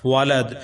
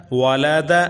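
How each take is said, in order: First: والد stopped on a vowelless d; pausal form. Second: والا دا with final "-da" sounded; unstopped form. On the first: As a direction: drop the last vowel of والد. (والد کے دال کو ساکن کر کے رکیں) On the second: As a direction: end والا دا on an open "a". (والا دا کے دال پر زبر پڑھیں) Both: Shown as a demonstration. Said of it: "آگے وقف".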